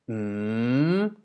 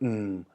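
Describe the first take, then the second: First: The pitch dips and then rises upward. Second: The pitch starts low and sinks lower. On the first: "a rising tone, which goes like mm" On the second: "low tone which goes down"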